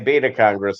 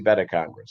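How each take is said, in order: First: The first syllable sounds like 'bay'. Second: The first syllable sounds like 'bet'. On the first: The speaker calls it wrong. "they don't say Beta Congress" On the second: The speaker calls it right. "they say Beta Congress"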